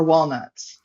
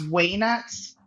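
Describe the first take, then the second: First: Said in the usual way. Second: "way nuts" for walnuts, first syllable as WAY; joke pronunciation. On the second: Shown as a demonstration. Farmer quoting brother's joke, "way nuts" with no L. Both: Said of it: "as my brother says".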